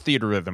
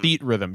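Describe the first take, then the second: First: The first part is said fully as theater. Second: A hard stop follows the T, splitting two words. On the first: "It's theater rhythm. I don't care" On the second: "with a hard stop after the T to separate it into two words"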